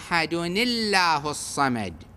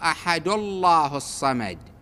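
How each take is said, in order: First: Ahad ends in 'nin', linking into Allah. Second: Ahad links into Allah with no 'n' sound. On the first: "التقت نون ساكنة مع ألف ساكنة حرك بالكسر" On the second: "يجوز أن لا ينونها الإنسان"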